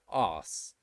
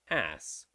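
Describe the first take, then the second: First: It is said with a British long vowel. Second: It is said with an American short vowel. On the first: "the same in British English too" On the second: "for Americans, it will be ass"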